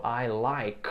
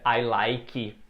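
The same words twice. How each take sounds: First: Like ending on a bare k, very slow; correct dry ending. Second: Like said as lik-i with a vowel added; wrong extra vowel. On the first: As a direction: model like with no added vowel. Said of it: "No, I like". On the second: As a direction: show the common error on like. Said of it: "é comum, né?". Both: Shown as a demonstration.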